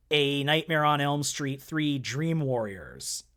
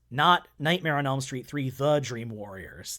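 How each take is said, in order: First: Nightmare on Elm Street Three Dream Warriors said slowly with no the; slow careful Dream Warriors without the; title without the. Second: The Dream Warriors with the stressed as wrong; correcting, stress on Not; wrong title with the. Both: Shown as a demonstration. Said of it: "They dropped the "the".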